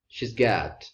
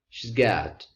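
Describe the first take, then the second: First: The word has is reduced to a z sound. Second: The word has is reduced to a z sound.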